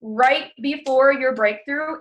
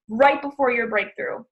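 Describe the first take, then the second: First: "Right before your breakthrough" drawn out slowly, each word leaned on; slow it right down and land "before"; slow emphatic repeat. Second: Said in the usual way. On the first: Shown as a demonstration. Coach rallying her team, slow and emphatic.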